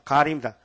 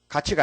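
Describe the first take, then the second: First: The second syllable starts with an 'r' sound. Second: The second syllable starts with a 'ch' sound. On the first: The speaker calls it right. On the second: The speaker calls it wrong. "가치가 아닙니다"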